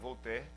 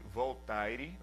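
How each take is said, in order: First: The name is said with its actual pronunciation. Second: The name is read the way it is written. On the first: "mas se pronuncia Voltaire" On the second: "na verdade se escreve Voltaire, né, em português"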